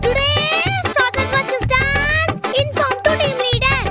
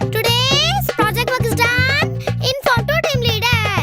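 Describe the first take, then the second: First: It is read out even louder, nearly shouted. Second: It is read out loudly. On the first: The reader insists on being heard studying. "சத்தமாவே படிப்போம்" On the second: The reader wants to be heard studying. "சத்தமா தான் படிப்புமே"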